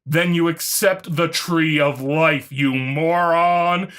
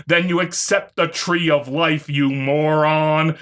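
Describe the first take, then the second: No difference in how they are said.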